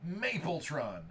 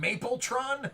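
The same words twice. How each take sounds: First: Said in the usual way. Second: Amused, higher "Mapletron?" with a laugh; laughing question. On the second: Real, not acted. [name] amused by a nickname, laughing "Mapletron?" up high. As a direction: chuckle through "Mapletron?" as a rising question. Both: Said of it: "what are they calling him".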